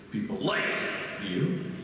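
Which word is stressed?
like. The word "like" carries the stress.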